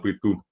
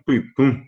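First: The final vowel is oral, not nasalized. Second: The final vowel is nasalized. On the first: It refers to breath or breathing. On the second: It refers to darkness.

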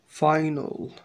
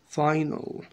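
Both takes have the same delivery.

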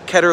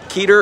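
First: The first vowel is short, as in better. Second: The first vowel is long, as in meter. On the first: The speaker calls it right. "Keter is a okay pronunciation. Keter like better" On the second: The speaker calls it wrong. "meter rhyming, Keter is right out"

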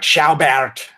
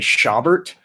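First: The surname is said with a German pronunciation. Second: The surname is said with an Irish-American pronunciation. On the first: This is how people in the name's country of origin say it. "in Germany, they're like Schaubert, which like only a handful of linguists get right" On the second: This is how people in one region say it. "In Southern Illinois, they say Schaubert, which is a nice Irish pronunciation of a German name"

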